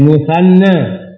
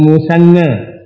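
First: The middle consonant is a 'th' sound. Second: The middle consonant is a plain 's' sound. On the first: The speaker calls it right. "Tes musanna" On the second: The speaker calls it wrong. "Jangan bilang musanna"

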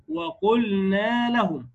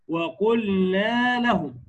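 Both takes have the same delivery.

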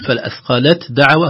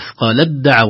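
First: The t is pronounced clearly before the d. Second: The t merges fully into the following d. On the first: The speaker calls it wrong. "هذا خطأ" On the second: The speaker calls it right. "هنا التاء في الدال"

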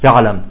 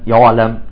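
First: The ain is soft and barely articulated. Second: The ain is heavy, with rounded lips. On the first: "فإنهم يلفظونها رخوة" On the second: "فبعضهم يخرجها مفخمة"

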